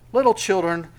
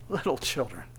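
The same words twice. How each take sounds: First: Said in the usual way. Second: Soft, low, tender address; tender, compassionate. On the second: Acted. Jesus bending down to his little children, tenderly. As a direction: bend down gently to a child. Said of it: "this tender, compassionate".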